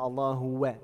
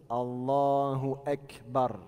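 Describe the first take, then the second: First: "Allahu Wa" slurred with no hamza; wrong pronunciation. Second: Slow "Allahu Akbar" with a clear glottal stop; "Allahu Akbar" said slowly and correctly; careful model. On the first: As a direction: mimic the mistake "Allahu Wa". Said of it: "ça se prononce pas comme ça". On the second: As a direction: model it slowly, hamza crisp. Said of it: "il faut bien le prononcer comme ça". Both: Shown as a demonstration.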